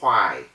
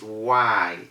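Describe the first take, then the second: First: The w starts with a breathy puff of air. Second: The w starts without a puff of air. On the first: The speaker calls it wrong. "It's not why" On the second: The speaker calls it right. "W H Y is is why"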